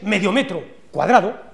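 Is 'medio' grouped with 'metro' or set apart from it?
grouped. A break separates 'medio metro' from 'cuadrado'. A square half a meter per side, 2,500 square centimeters. "Atentos a mi entonación"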